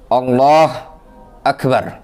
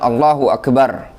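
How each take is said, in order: First: The 'h' sound ends with no following vowel. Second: A short 'u' vowel follows the 'h' sound. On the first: The speaker calls it wrong. "taskinul ha, mensukun ha" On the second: The speaker calls it right. "bi dhammil ha, dengan mendhammah ha"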